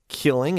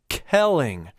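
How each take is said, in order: First: The first vowel sounds like 'ih'. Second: The first vowel sounds like 'eh'. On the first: The speaker calls it wrong. "It's not killing" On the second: The speaker calls it right. "it's kelling"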